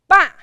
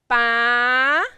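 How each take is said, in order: First: It is said with the fourth tone. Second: It is said with the second tone. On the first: "And tone number four" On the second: "And tone number two"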